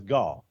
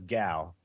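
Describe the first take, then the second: First: The vowel sounds like in 'gall'. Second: The vowel sounds like in 'gal'. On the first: The speaker calls it right. "That's always Gall" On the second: The speaker calls it wrong. "I never say G A L L as gal"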